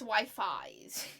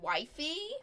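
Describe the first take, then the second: First: The name ends with an 'eyes' sound. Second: The name ends with an 'ee' sound. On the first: The speaker calls it right. "but it's Wi-Fi's" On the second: The speaker calls it wrong. "I originally was pronouncing this as"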